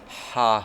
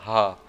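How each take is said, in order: First: The h is made deep in the throat. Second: The h is a plain, ordinary breath sound. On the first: The speaker calls it right. "make the right like ha sound" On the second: The speaker calls it wrong. "if I said ha"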